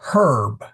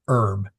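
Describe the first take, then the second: First: The word begins with an audible h sound. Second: The word begins without any h sound. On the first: The speaker calls it right. "H is always pronounced" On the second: The speaker calls it wrong.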